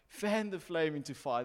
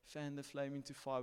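First: It is said in a forceful, earnest way. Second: It is said in a gentle, encouraging way. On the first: It is an earnest urging that carries correction. "but it's like" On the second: It is only mild encouragement. "It's not like just the encouragement of"

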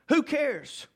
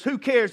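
First: It sounds like a sincere, searching question. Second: It sounds like an uncaring, dismissive statement.

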